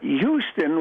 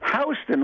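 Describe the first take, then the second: First: It is pronounced the way Texans say it. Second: It is pronounced the way New Yorkers say it. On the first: It names the city in Texas. "Houston was a guy in Texas" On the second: It names the street in New York. "Houston was a guy in New York"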